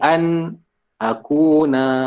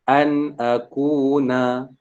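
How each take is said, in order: First: There is a brief stop between the words. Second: The words run together without a break. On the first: The speaker calls it wrong. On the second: The speaker calls it right.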